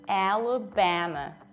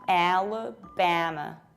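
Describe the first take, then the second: First: The vowels are said with lips spread sideways. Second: The same.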